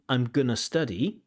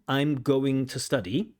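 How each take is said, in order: First: Going to is squeezed together into gonna. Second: Going to is said fully, every sound clear. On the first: "The connected form" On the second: "the full form"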